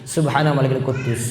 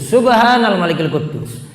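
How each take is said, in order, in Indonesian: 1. Diucapkan dengan pelan dan lirih. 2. Diucapkan paling keras dari ketiganya. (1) "nada pertama itu lebih lirik" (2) "yang ketiga lebih keras lagi"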